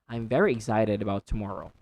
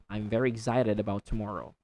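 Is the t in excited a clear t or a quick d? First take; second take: quick d; quick d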